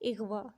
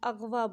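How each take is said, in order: First: The first vowel is 'i', as in ighwa. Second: The first vowel is 'a', as in aghwa. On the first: The speaker calls it right. "इसकी असल अदायगी है" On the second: The speaker calls it wrong. "अग़वा बोलते हैं, जो कि गलत है"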